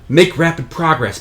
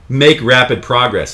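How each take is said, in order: First: It sounds warmly, eagerly encouraging. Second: It sounds mocking and sarcastic.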